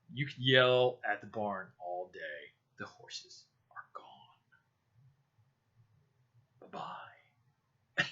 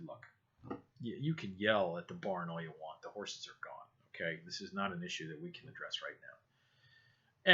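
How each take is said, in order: First: Drawn out, fading into a whisper; slow it right down, then whisper the dismissal; slow mock whisper. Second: Retold dry sarcasm, low and soft; understated sarcastic brush-off. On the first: Telling the boss the horses are gone, in a slow fading whisper. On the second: Telling the boss on the phone it can't be fixed, sarcastically. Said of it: "I said it sarcastically".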